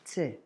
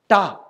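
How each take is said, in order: First: The letter is said as a bare 't'. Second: The letter is said as 'ta' with a vowel. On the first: The speaker calls it right. "remember to say it as t" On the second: The speaker calls it wrong. "We've been pronouncing this as ta"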